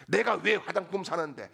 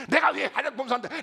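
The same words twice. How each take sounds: First: Acted wife starting to flare up, louder; mock indignation, firm and raised in level; imitated rising anger. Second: High, loud, rapid-fire challenge; hammed-up furious demand, pitched high; imitated angry outburst. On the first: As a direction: begin an indignant challenge, temper still building. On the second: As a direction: act out a wife boiling over, fast and shrieked. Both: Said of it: "아내가 화가 막 치밀어 올라가지고".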